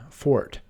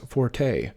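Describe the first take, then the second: First: Forte said like fort, one syllable; correct pronunciation. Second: Forte said FOR-tay; common mispronunciation. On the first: Teacher showing viewers the right way. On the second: Teacher showing viewers the wrong way. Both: Shown as a demonstration. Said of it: "often mispronounced as forte".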